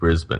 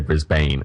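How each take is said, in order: First: It is said with a local Australian accent. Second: It is said with an American accent.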